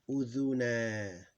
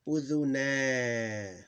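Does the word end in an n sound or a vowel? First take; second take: vowel; vowel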